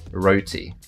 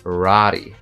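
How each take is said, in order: First: It is said in a British accent. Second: It is said in an American accent. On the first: "in the British accent, it'll be roti" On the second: "I'm guessing in the American accent it'll be rari"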